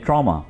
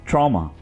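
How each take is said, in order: The two takes are said the same way.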